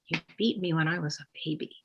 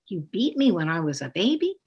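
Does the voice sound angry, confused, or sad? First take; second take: sad; confused. First: It is said in a sad tone. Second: It is said in a confused tone. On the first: The child is sad about it. "or sadness?" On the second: The child is confused about it. "or confusion?"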